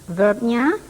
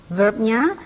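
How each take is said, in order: Both takes have the same delivery.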